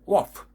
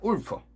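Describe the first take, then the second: First: It is said as one English syllable, wolf. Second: It is said with Korean-style syllables, like ul-peu. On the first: The speaker calls it right. "이런 발음이 나와야 돼요" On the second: The speaker calls it wrong. "우리는 울프 하잖아요. 울프가 아니거든요"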